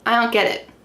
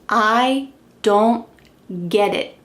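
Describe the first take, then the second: First: The D in don't is dropped. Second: The D in don't is pronounced.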